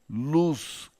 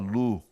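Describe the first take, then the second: First: The word ends with a clearly stressed S sound. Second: The word ends without any final S sound. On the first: The speaker calls it right. "carrega o S" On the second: The speaker calls it wrong. "fala Lu"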